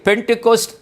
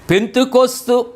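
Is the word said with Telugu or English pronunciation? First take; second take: English; Telugu. First: It is said with English sounds, ending in t. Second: It is said with Telugu sounds and a final vowel. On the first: "ఇంగ్లీష్లో దానిని పెంటెకోస్ట్ అని ఉచ్చారణ" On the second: "తెలుగులో చెప్పుకుంటాం"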